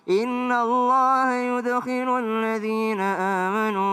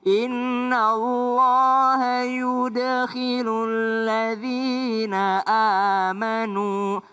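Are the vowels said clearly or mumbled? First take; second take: mumbled; clear. First: The vowels are mumbled with the mouth barely open. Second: The vowels are clear with the mouth open. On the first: The speaker calls it wrong. "Jangan ... Tetap bagus tapi tidak jelas" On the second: The speaker calls it right. "itu dibuka aja mulutnya"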